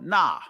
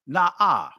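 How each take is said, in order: First: It is one short syllable without the final 'ah'. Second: It ends with a second, separate 'ah' sound. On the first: The speaker calls it wrong. "you won't just drop the last ah" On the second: The speaker calls it right. "you're pronouncing the non and the alap. They're not silent"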